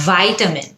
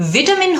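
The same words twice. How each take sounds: First: "ভাইটামিন" as VY-ta-min; American pronunciation. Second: "ভিটামিন" as VIT-a-min; short I opens "ভিটামিন"; British pronunciation. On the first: Teacher introduces the American form, "ভাইটামিন" as VY-ta-min. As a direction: EYE opens "ভাইটামিন". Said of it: "American". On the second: Teacher labels the British form, "ভিটামিন" as VIT-a-min. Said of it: "British উচ্চারণ". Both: Shown as a demonstration.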